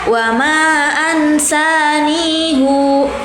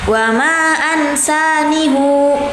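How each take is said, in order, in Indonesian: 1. Bunyi hu di akhir dibaca panjang. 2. Bunyi hu di akhir dibaca panjang.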